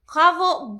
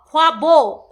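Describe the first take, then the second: First: খ্বাবো with the ব sound said fully; correct pronunciation. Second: খ্বাবো with the ব swallowed; mock Tia, barely sounding the ব in খ্বাবো; imitating her pronunciation. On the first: Shown as a demonstration. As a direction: say খ্বাবো pronouncing the ব clearly. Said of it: "বটা উচ্চারণ". (খ্বাবো-তে ব স্পষ্ট উচ্চারণ) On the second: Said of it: "বটা ... পুরোটা উচ্চারণ করবে না". (খ্বাবো-তে ব প্রায় বাদ দিয়ে নকল)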